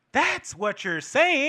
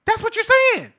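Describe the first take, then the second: First: Slow, raised pitch on the conclusion; stretched, deliberate delivery; drawn-out point. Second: Very high, loud outburst; incredulous high-pitched exclamation; exclaimed point. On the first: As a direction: spell it out slowly. Drives home the point, first take. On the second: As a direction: fire it back in a pitched-up yell. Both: Real, not acted.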